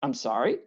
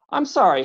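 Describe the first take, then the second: First: Lower, softer I'm sorry? with a rising end; taken aback, asking what he means; puzzled question. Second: Higher, louder polite visitor saying I'm sorry; bow and apologize earnestly; eager courteous apology. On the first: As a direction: caught off guard, asking back. Visitor confused after being snapped at. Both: A narrator's reading.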